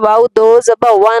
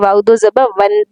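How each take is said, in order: First: The final n sound is muted, not clear. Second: The final n sound is pronounced clearly. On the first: The speaker calls it wrong. "नहीं पढ़ना" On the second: The speaker calls it right. "बल्कि वाओ दो ज़बा वन पढ़ना है"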